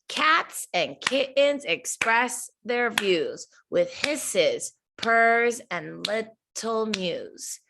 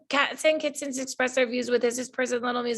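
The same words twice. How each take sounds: First: It is read with a steady, bouncing rhythm. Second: It is read flatly with no steady rhythm. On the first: The speaker calls it right. "we want to read it with rhythm" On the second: The speaker calls it wrong. "If you just read it without the rhythm, it doesn't sound as nice"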